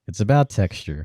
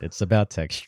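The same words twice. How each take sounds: First: It is said slowly and sensually. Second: It is said at normal speed.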